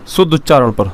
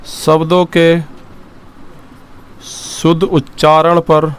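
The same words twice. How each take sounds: First: Said in the usual way. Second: शुद्ध उच्चारण पर said very slowly, word by word, for writing down; slow dictation. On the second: Shown as a demonstration. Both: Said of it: "लिखेंगे".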